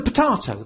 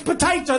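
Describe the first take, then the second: First: "potato" with a long AH in the middle; mispronounced potato. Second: "potato" with an AY in the middle; correct potato. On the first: The friend confidently names the item, "potato" with an AH. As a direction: say "potato" as puh-TAH-toh. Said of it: "pronouncing that word wrong". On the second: Insisting on the proper word, "potato" with an AY. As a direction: say "potato" as puh-TAY-toh. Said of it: "That's how you say it". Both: Acted.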